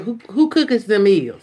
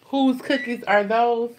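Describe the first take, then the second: First: Imitating the kid's country grammar; mimicking daughter. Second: Slow correct WHOSE cookies are those; proper grammar. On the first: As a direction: say it like the daughter did. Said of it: "but she said". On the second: Shown as a demonstration. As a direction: stress WHOSE, said slowly and properly. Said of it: "the girl is a straight A student".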